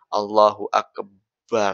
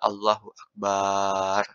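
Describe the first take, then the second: First: The b sound in Akbar is doubled. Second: The vowel after the b is lengthened. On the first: "nggak boleh juga baknya ditasydidkan" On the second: "Dipanjangkan baknya nggak boleh"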